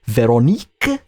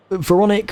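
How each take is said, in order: First: Veronique said the French way, slow with a rising end; French accent. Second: Said in the usual way. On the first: Pretend. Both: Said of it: "I hope you liked my, uh, French there".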